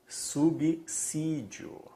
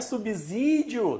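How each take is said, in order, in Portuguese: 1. A consoante do meio tem som de s surdo. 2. A consoante do meio tem som de z sonoro. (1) "sabe qual é a pronúncia correta aqui?" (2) "Não é subsídio"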